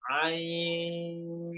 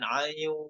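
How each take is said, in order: First: The vowel is held for four beats. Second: The vowel is held for two beats. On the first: The speaker calls it right. "boleh empat harokat" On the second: The speaker calls it wrong. "Tidak boleh dua harokat"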